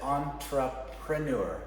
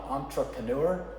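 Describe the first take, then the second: First: The word does not begin with 'on'. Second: The word begins with an 'on' sound. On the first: The speaker calls it right. "but it's entrepreneur" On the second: The speaker calls it wrong. "Some people will say on"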